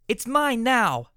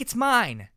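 First: High, slow, loud gloat; drawn-out loud mine; triumphant declaration. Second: High loud shriek on mine; falling shriek on mine. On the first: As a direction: stretch out mine like a winner. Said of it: "Medley declared". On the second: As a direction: scream mine as she grabs. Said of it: "she shrieked". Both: Acted.

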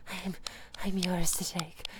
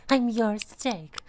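First: Soft unvoiced whisper, lower; whispered repeat. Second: Said in the usual way. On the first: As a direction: breathe the words as a whisper.

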